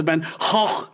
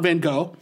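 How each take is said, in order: First: "Van Gogh" said the Dutch way, with a throaty ch for the g's; Dutch pronunciation. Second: Said in the usual way. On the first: Shown as a demonstration. Host shows listeners how the Dutch say the painter's name, Dutch style. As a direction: say "Van Gogh" like "fan hoch", with a rasped ending. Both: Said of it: "not Van Gogh".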